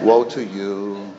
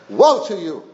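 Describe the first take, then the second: First: It is said softly and mildly. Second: It is said forcefully and sternly. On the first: The rebuke is weak and meek. The speaker calls it wrong. "I don't think He said it this way" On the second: The rebuke is full of strong emotion. The speaker calls it right. "woeing the religionists"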